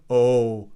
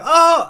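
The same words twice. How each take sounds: First: It is said on a low pitch. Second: It is said on a high pitch. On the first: "they won't make a low noise. They won't go, oh, like that" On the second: "they'll hit a note that is higher"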